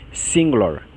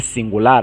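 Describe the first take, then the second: First: "singular" stressed on the first syllable, falling to -lor; English pronunciation. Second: "singular" stressed on the last syllable, open -lar; Portuguese pronunciation. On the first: Teacher contrasts English with Portuguese, English pronunciation of "singular". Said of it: "a gente diz". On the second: Teacher shows the Portuguese word before the English, Portuguese pronunciation of "singular". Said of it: "mas a pronúncia muda". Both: Shown as a demonstration.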